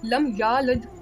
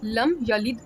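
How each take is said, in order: First: The first vowel of yalid is lengthened. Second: The first vowel of yalid is short. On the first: The speaker calls it wrong. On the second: The speaker calls it right.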